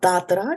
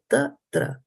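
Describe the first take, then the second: First: The t sounds are said hard. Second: The t sounds are said soft. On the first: The speaker calls it wrong. "Not tatra" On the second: The speaker calls it right. "the ta and the tra are both soft"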